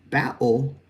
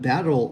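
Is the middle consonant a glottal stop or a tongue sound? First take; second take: glottal stop; tongue sound. First: The middle consonant is a glottal stop. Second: The middle consonant is made with the tongue. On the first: "closing the glottis to keep the sound from going up" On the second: "all with the tongue up behind our teeth"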